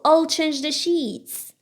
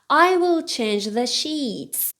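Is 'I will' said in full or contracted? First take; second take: contracted; full. First: I will is shortened to one syllable. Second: I will is said as two full words.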